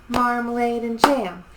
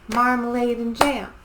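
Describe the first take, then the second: Both takes have the same delivery.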